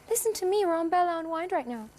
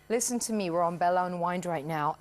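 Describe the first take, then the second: First: A high, light, childlike head voice is used. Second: A lower, grounded chest-middle voice is used.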